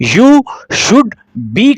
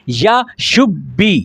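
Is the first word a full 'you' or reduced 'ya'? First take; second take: full; reduced. First: The first word is a full 'you'. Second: The first word is reduced to 'ya'.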